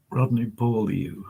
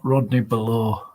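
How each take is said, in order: First: "Beaulieu" said BOH-lee-yu; "Beaulieu" as bohl-YOO, rather than "below"; corrected pronunciation. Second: "Below" said buh-LOH, like English below; "Below" as the everyday word below; wrong pronunciation. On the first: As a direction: say "Beaulieu" with a y-glide into the last syllable. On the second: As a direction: say "Below" with a plain "loh" ending and no y-glide. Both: Shown as a demonstration. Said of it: "it's not Rodney Below".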